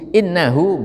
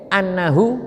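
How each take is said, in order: First: The word begins with an 'i' vowel. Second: The word begins with an 'a' vowel. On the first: It starts a new sentence. "dibaca kasroh hamzahnya i" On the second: It gives the reason grammatically. "dibaca fathah"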